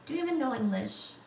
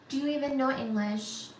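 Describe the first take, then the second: First: Even leaned on, quick mocking question; stress on even. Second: You leaned on in the question; stress on you. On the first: Teasing a chat viewer, stress on even. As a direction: hit the word even. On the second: Teasing a chat viewer, stress on you. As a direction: punch the word you. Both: Shown as a demonstration.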